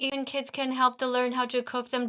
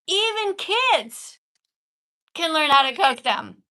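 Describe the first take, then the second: First: It is read flatly and haltingly. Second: It is read with lively enthusiasm.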